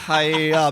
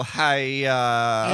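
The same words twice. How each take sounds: First: Louder karate kiai; karate yell. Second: Loud, drawn-out kiai; karate yell. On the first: Shouting as if chopping a board at karate class. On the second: Loud kiai for someone chopping a board in karate class. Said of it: "chop a board in half and go". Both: Shown as a demonstration.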